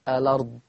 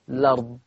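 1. تبدأ الكلمة بـ'a' قصيرة قبل 'l'. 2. تبدأ الكلمة مباشرة بصوت 'l'. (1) "اثبت همزة الوصل واقول الأرض" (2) "حذف همزة الوصل وابدأ باللام مباشرة"

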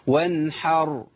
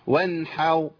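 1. الراء الأخيرة بتتنطق بوضوح ولفترة قصيرة. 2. الراء الأخيرة بتضيع، وبتتنطق زي الواو. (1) "لازم اظهار الراء" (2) "فين الراء؟ كانه ابدلها بواو، لانه خد هي التفخيم مع مط الشفتين"

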